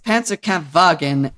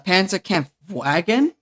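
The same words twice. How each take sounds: First: The w is said as a v. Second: The w is said as an English w. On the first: The speaker calls it right. "W's are pronounced as V's" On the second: The speaker calls it wrong. "they call it uh for example uh"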